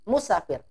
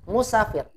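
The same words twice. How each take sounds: First: The vowel after the s is short. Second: The vowel after the s is short.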